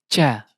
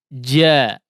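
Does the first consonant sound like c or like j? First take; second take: c; j. First: The consonant sounds close to a c. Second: The consonant is a clear j sound. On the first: The speaker calls it wrong. "terdengar cenderung ke huruf C" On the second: The speaker calls it right. "lidah bagian tengah"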